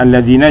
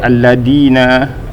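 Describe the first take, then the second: First: The middle consonant is a voiced th sound. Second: The middle consonant is a plain d sound. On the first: The speaker calls it right. "huruf zal pada kalimah alladzina" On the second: The speaker calls it wrong. "bil muhmalah, dengan tak ada titik, iaitu dal"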